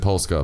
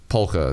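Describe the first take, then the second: First: The word has an S sound before the K. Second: The word has no S sound before the K. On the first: The speaker calls it wrong. "I said Polska" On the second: The speaker calls it right. "but it's polka. That's how you pronounce it. The S is silent"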